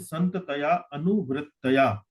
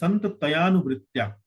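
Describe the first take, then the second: First: The words are separated into distinct parts. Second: The words are joined into one flow. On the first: The speaker calls it wrong. "You you mentioned Santataya Anu Vrittaya" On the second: The speaker calls it right. "you need not separate the word Santataya and then Anuvritya"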